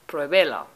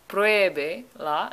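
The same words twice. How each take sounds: First: The stress is on a later syllable. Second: The stress is on the first syllable. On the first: The speaker calls it wrong. "instead of" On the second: The speaker calls it right. "we want to keep the accent on the E"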